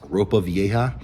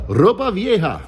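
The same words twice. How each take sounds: First: It is said with an English accent. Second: It is said with a Spanish accent.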